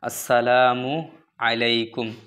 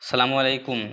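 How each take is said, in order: First: The greeting begins with an 'as' sound. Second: The greeting begins directly with a 'sa' sound. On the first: The speaker calls it right. "উচ্চারণ আসসালামু আলাইকুম, শুদ্ধ করবেন" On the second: The speaker calls it wrong. "অনেক লোক ভুল করে দেয় এসে, যেমন সালামু আলাইকুম"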